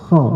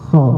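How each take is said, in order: No difference in how they are said.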